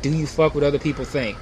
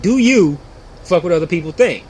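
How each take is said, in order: First: It runs on as one question. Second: It breaks after 'do you', then a statement.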